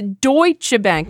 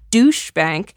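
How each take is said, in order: First: The first word sounds like 'doy-cheh'. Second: The first word sounds like 'doosh'. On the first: The speaker calls it right. "It's Deutsche Bank" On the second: The speaker calls it wrong. "not Douche Bank"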